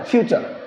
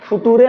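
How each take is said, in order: First: The word sounds like fyoo-cher, with a ch sound. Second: The word sounds like foo-too-ray, read letter by letter. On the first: The speaker calls it right. "फ्यूचर बोला जाता है" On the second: The speaker calls it wrong. "फुटूरे ना"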